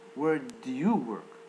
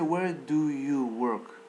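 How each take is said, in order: First: The word do is reduced and barely heard. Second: The word do is pronounced fully and clearly. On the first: The speaker calls it right. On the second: The speaker calls it wrong.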